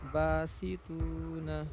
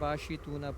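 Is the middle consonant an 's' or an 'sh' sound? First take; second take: s; sh. First: The middle consonant is pronounced as s. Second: The middle consonant is pronounced as sh. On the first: The speaker calls it right. "स की आवाज़ है इसमें, हिंदी वाला जो स है।" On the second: The speaker calls it wrong. "नुक्ते वाला शीन रहता है ना, तब ना बाशी तूना पढ़ते हैं।"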